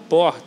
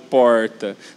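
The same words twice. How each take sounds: First: The word is said short without drawing out. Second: The word is drawn out in a regional accent. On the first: The speaker calls it right. "fala porta" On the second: The speaker calls it wrong. "não fala tão arrastado porta"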